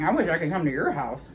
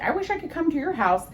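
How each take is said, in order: First: "your" hit and falling at the end; stress on your. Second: High, eager quoting friends; high imitating voice. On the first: Real, not acted. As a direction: lean on "your", I wish I could come to YOUR house. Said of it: "Are you kidding?". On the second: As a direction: mimic friends' wistful wish up high. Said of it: "People are always like".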